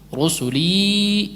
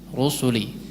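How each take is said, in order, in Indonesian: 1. Vokal akhir ditahan dengan durasi panjang. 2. Vokal akhir ditahan dengan durasi pendek. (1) "Kalau dia panjang itu berarti ketemu hamzah setelahnya" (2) "Rusuli kalau waqaf dua harakat karena dia menjadi mad tabi'i"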